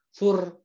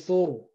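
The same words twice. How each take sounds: First: The r is said light and thin. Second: The r is said heavy and thick. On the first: The speaker calls it wrong. "sur sur bukan" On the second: The speaker calls it right. "tapi sur begitu"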